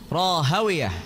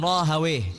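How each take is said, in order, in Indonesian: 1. Nama itu berakhir dengan suku kata '-wiyah'. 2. Nama itu berakhir dengan suku kata '-wih' yang pendek. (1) "Kalau ahlu hadis bacanya" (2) "Kalau ahli lughah bacanya"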